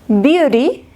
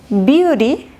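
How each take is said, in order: The two takes are said the same way.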